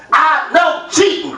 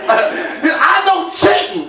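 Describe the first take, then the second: First: A touch slow, mock-crazed kid; wild-eyed kid. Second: Slow, drawn-out, shouted accusation; wild-eyed kid. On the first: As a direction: comedian quoting son, mildly wild-eyed. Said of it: "with a wild look in his eye". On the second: Retold or imitated. Son accusing dad over board game, slow wild shout. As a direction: stretch each word like a crazed little kid. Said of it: "he had a wild look in his eye".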